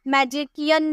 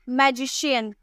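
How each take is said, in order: First: The middle consonant is a k sound. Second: The middle consonant is an sh sound. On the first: The speaker calls it wrong. "मैजिकियन नहीं बोलते हैं" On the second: The speaker calls it right. "शौ में"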